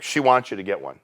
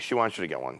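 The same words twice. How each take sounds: First: Said in the usual way. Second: Low, soft, under the breath; avoiding confrontation. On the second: Retold or imitated. Agent to angry husband without eye contact, timid and soft. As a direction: say it quietly, as if not looking at him. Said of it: "I wouldn't even make eye contact with him".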